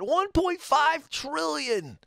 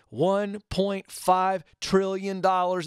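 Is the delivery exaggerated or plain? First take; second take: exaggerated; plain. First: It is said in an exaggerated, obnoxious tone. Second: It is said in a plain, matter-of-fact tone.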